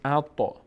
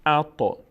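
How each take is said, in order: First: The t bounces with a slight echo. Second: The same.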